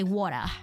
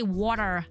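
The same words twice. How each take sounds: First: It is said with an Australian accent. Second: It is said with an American accent. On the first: "We say water" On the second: "We don't say water like the American person"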